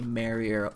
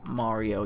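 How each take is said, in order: First: The first vowel is compressed and narrower. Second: The first vowel is wide open. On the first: "you say Mario" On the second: "you can't say Mario"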